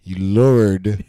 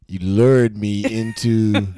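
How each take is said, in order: First: "lured" said loud and clipped, the r-sound swallowed; mispronounced lured. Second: "lured" drawn out slowly, a full r-sound; careful pronunciation. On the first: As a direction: blurt "lured" loudly, slightly off. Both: Shown as a demonstration. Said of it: "I didn't say it right".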